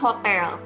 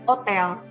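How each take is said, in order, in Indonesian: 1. Kata ini diawali bunyi h yang terdengar. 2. Kata ini diawali tanpa bunyi h.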